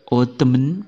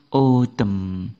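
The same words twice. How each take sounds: First: An N sound is pronounced at the end. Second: No N sound is pronounced at the end. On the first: The speaker calls it wrong. "Bukan autumn, bukan" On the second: The speaker calls it right. "huruf N pada kata ini tidak dibaca"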